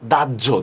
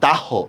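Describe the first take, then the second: First: The word is said in its usual spoken form. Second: The word is sounded out letter by letter. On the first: This is how the word is actually spoken. "উচ্চারণ করতেছি কিন্তু" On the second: This is how the word is written. "লিখতেছি কিন্তু আমি"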